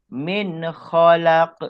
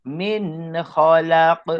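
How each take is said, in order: The two takes are said the same way.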